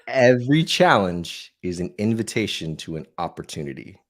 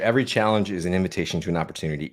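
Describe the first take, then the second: First: It is spoken at a deliberately slower pace. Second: It is spoken at a normal, quicker pace.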